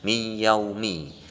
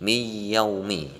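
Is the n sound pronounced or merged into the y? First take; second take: merged; merged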